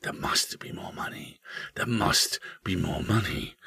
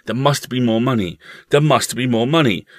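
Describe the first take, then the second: First: Hushed, whispered haunting refrain; soft, secret whisper; eerie whisper. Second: Higher, louder, insistent refrain; urgent repeated refrain, louder. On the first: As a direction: whisper it like a voice hidden in the house. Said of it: "a voice would start whispering". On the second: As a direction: press the phrase home, raised pitch. The house's unspoken phrase, repeated. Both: A narrator's reading.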